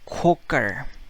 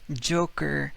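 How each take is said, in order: First: It begins with a 'k' sound. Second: It begins with a 'j' sound. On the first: "the Spaniard, he say Coker" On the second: "the word Joker"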